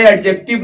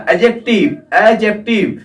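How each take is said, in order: First: "एडजेक्टिव" with an audible d before the j; wrong pronunciation. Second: "एडजेक्टिव" with a silent d, as "a-jective"; correct pronunciation. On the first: Teacher warning his dear students, "एडजेक्टिव" with the d pronounced. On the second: Teacher modelling for students, "एडजेक्टिव" said with no d sound. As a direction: drop the d in "एडजेक्टिव". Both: Shown as a demonstration. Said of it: "नहीं बोलना".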